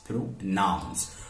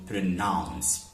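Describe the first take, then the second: First: "pronounce" broken as "pro", pause, "nounce"; split into syllables. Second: Said in the usual way. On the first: Shown as a demonstration. Teacher counting two syllables for students, "pronounce" split in two. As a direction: separate the two syllables of "pronounce", falling at the end. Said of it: "so we have pr, the first syllable". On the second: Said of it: "two syllables. We have pro".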